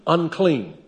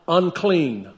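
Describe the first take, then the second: The two takes are said the same way.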